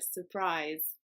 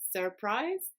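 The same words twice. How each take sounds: First: The first r sound is left out. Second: The first r sound is pronounced. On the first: The speaker calls it right. "but surprise" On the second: The speaker calls it wrong. "it's not surprise"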